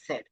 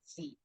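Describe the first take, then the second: First: The letter name is said the British way. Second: The letter name is said the American way. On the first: "And in British English, we refer to Z as Z" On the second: "in U S English, we refer to Z as Z"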